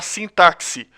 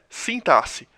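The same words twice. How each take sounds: First: The x is said as ks. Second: The x is said as s. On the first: The speaker calls it wrong. "pronuncia de maneira errônea" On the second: The speaker calls it right. "a pronúncia de sintaxe é sintaxe"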